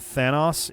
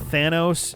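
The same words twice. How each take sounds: First: The name is pronounced the British way. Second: The name is pronounced the American way. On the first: "more uh, uh, uh, British" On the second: "the more American pronunciation"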